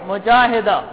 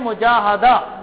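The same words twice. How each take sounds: First: The vowel after the 'h' is 'i'. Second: The vowel after the 'h' is 'a'. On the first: It refers to a female fighter or a fighter's wife. "مجاہدہ کہتے ہیں مجاہد کی بیوی کو" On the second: It refers to spiritual striving or effort. "زبر کے ساتھ"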